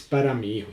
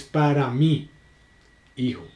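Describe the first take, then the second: First: "para mi hijo" in one smooth breath; no comma, flowing phrase; no pause. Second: "para mí," then a clear pause before "hijo"; pause after mí. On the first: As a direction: run "mi hijo" together with no break. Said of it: "es diferente". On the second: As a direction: break the phrase after "mí" like a comma. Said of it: "empezamos a mirar lo que es el tema de las comas". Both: Shown as a demonstration.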